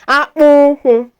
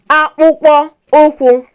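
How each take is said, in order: First: The word is said in a shortened form. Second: The word is said in its full form.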